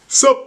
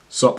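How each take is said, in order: First: The greeting sounds casual and friendly. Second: The greeting sounds hostile and unfriendly. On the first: It is a relaxed, friendly hello. "not like a "sup, bro."" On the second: It is an unfriendly, confrontational hello. "in like a hostile, threatening way"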